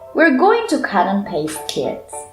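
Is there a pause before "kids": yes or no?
no. It runs on to kids without a pause.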